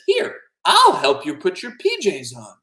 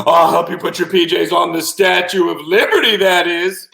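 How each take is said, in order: First: Higher, slower kindly offer; helpful octopus. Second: High, loud proclamation; gleeful octopus. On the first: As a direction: offer help sweetly, taking your time. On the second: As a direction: call it out from a great height. Octopus shouts from atop the statue. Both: Acted.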